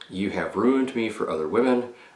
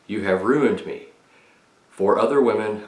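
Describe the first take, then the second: First: It is said as one phrase without a pause. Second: There is a clear pause after 'me'.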